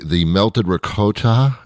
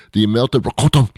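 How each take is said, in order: First: Said in the usual way. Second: "ricotta" pushed higher with an overdone r; exaggerated pronunciation. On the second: Shown as a demonstration. Host redoing the dish's name, exaggerated "ricotta". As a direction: show off the r in "ricotta". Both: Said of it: "am I saying it right?".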